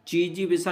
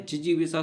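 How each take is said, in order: First: जीजीविषा with long first ई; wrong pronunciation. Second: जिजीविषा with short first इ; correct pronunciation. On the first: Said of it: "जीजीविषा नहीं होता है". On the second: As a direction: keep जि short, then long जी. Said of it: "जिजीविषा शुद्ध होगा". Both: Shown as a demonstration.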